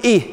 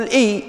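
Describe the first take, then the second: First: "إيه" closed on an audible h; final haa of pausing. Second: Said in the usual way. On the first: Shown as a demonstration. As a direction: stop "إيه" with a breath of h, "eeh". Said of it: "تقول". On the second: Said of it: "بدل ما تقول".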